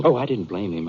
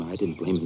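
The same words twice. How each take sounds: First: Said in the usual way. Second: Softer, inward echo of the denial; half to himself, letting it drop; quieter repeat. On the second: Acted. Art repeating to Britt, softer, almost to himself.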